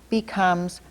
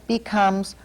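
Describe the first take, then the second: No difference in how they are said.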